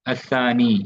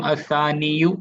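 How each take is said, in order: First: असानी closing on a long "ee"; sukoon ending. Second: असानियु slow, with a full "-yu" ending; dammah pronounced. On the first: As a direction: end असानी without any final u. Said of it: "बस सुकून पढ़ते हैं इसको". (असानी को सुकून पर रोककर) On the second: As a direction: sound out the final short u of असानियु. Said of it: "same असानियु नहीं". (असानियु के अंत में दम्मा बोलकर) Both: Shown as a demonstration.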